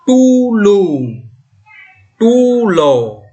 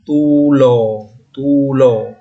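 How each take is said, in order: First: Tulo with lips forward, loud and high; teacher reading rounded tulo. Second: Tulo with a wider, unrounded o, lower; teacher contrasting open tulo; wide tulo. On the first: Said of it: "Coba simak baik-baik ya, saya baca". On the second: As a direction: keep the lips wide on the o of tulo. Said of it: "agak lebar". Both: Shown as a demonstration.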